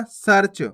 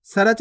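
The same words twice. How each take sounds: First: सर्च as one syllable, "sarch"; half "r" in सर्च. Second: सर्च split as "sa-rach"; wrong full "ra". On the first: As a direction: join r straight to ch in सर्च. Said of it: "सर्च नहीं पढ़ना". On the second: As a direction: say सर्च with a vowel after r, "sarach". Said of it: "नहीं पढ़ना". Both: Shown as a demonstration.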